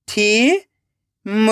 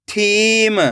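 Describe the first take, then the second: First: थीम split into थी, long pause, म; rising थी, then म alone; syllable by syllable. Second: थीम joined as one word with long ई; blended word. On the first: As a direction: sound out थीम very slowly in two parts. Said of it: "एक एक अक्षर का उच्चारण करना है". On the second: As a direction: read थीम whole, stretching the थी. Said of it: "खींच के पढ़ना है". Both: Shown as a demonstration.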